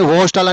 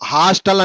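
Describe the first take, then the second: First: The first vowel sounds like 'oh'. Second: The first vowel sounds like 'ah'. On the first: The speaker calls it wrong. "హోస్టల్ అని ఎవరు అనరు" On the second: The speaker calls it right. "హాస్టల్ అంటారు"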